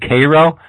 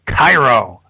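First: The name sounds like the syrup brand Karo. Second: The name sounds like the Egyptian city Cairo. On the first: The speaker calls it wrong. "as in Cairo syrup" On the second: The speaker calls it right. "as in Egypt"

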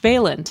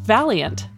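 First: It does not sound like the word valiant. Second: It sounds just like the word valiant. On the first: The speaker calls it wrong. "Angela mispronounces the name" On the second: The speaker calls it right. "his last name is actually pronounced Valiant, a suitable patronym given his bold work"

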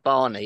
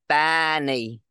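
First: The name is said in a natural accent. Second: The name is said in an imitated accent. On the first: This is the expected way to say it. The speaker calls it right. "instead of Barney" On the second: This is how someone else said it. The speaker calls it wrong. "the way she kept saying Barney"

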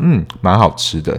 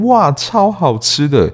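First: It sounds calm and restrained. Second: It sounds excited and exaggerated.

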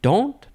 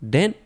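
First: The vowel sounds like the 'o' in 'don't'. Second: The vowel sounds like the 'e' in 'bed'. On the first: This guesses at a French pronunciation. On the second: This is the ordinary English pronunciation.

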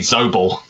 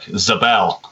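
First: The stress is on the first syllable. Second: The stress is on the second syllable. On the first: This is how an English person would say it. "If he was English, he might be Zobel" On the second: This is how Americans would say it. "Americans would be more likely to pronounce the second syllable"

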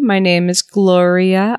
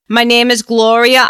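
First: It is said in the speaker's plain accent. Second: It is said in a New York accent.

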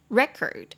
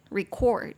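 First: The stress is on the first syllable. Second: The stress is on the second syllable. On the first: It is a noun meaning a recorded document. "它重音就会在前面，念作record" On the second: It is a verb meaning to record. "就会变record record，重音跑到后面"

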